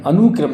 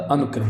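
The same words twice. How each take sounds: First: अनुक्रम with a long oo, "anookram"; mispronounced अनुक्रम. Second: Said in the usual way. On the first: Shown as a demonstration. Teacher showing the wrong spelling, अनुक्रम as "anookram". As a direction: stretch the u in अनुक्रम. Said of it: "अनुक्रम नहीं होता". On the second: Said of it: "अनुक्रम होता".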